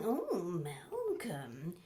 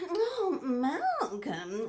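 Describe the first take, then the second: First: Slow soft murmur of his name; low tender murmur. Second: Slow laughing sigh of his name; breathy swoon. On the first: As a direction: drop low and linger on it. Repeated, lower and softer. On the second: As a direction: melt over the name, laughing. After a gasp, swooning. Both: Acted.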